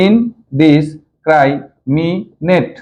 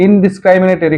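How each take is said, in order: First: ইনডিসক্রাইমিনেট broken into five slow, separate syllables. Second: Said in the usual way. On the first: Shown as a demonstration. Teacher shows pupils how to pronounce a long word, ইনডিসক্রাইমিনেট split by syllable. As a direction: say ইনডিসক্রাইমিনেট very slowly, pausing after each syllable. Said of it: "ভেঙে ভেঙে syllable করে". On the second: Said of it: "কয়টা vowel".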